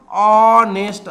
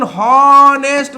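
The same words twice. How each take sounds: First: ऑनेस्ट with a long opening vowel, no h; silent H. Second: हॉनेस्ट drawn out, high and loud, with a sounded h; wrong H pronunciation. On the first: Teacher showing how we say it, ऑनेस्ट starting on a drawn-out vowel. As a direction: stretch the first vowel of ऑनेस्ट, dropping any h. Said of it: "तर याला आपण काय म्हणतो?". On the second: Teacher asking if we say it so, हॉनेस्ट with a drawn-out h. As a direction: stretch हॉनेस्ट with an audible h at the front. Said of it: "हॉनेस्ट म्हणत नाही". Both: Shown as a demonstration.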